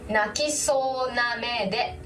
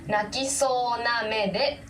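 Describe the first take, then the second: The two takes are said the same way.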